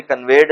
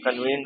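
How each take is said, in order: First: कन्वेड said as kən-ved, the mistaken form; teacher showing the wrong word कन्वेड; wrong pronunciation. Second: कन्वीन्ड said as kən-veend with a long ee; teacher giving the correct कन्वीन्ड; correct pronunciation. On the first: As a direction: mimic the wrong कन्वेड students use. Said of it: "properly कन्वेड नहीं होता". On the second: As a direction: stress the right form कन्वीन्ड, long vowel. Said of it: "कन्वीन्ड होता है". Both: Shown as a demonstration.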